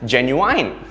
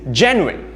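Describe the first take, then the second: First: The word ends with a full 'wine' sound. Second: The first syllable is stressed; the ending fades. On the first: The speaker calls it wrong. "There's a wine in it when we pronounce it" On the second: The speaker calls it right. "Notice how gen is stressed, but the other two syllables sort of fade"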